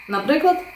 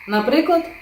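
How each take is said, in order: The two takes are said the same way.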